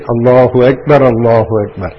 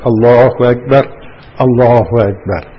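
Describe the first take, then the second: First: The two phrases run together without a stop. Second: There is a stop between the two phrases. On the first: The speaker calls it right. "But it must be said together" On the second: The speaker calls it wrong. "Mustn't make waqf"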